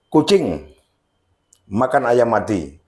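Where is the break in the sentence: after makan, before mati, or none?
none. The sentence runs on with no break. The cat eats a chicken that was already dead. "Jadi ayam yang sudah mati"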